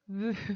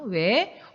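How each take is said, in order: First: The vowel is one steady rounded sound. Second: The vowel glides from w into e. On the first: "이 발음 좀 이상하다" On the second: "그냥 왜라고 할게"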